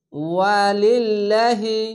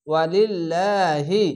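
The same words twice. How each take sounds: First: ওয়ালিল্লাহি chanted very slowly, the লা stretched one alif; recited tajweed word. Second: ওয়ালিল্লাহি drawn out slowly, লা lengthened; recited tajweed word. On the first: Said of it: "খাড় জবর এক আলিফ টেনে পড়বেন।". (ওয়ালিল্লাহি ধীরে, লা এক আলিফ টেনে) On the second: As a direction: chant ওয়ালিল্লাহি slowly, long লা. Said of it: "reads word after spelling it". (ওয়ালিল্লাহি টেনে পড়া) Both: Shown as a demonstration.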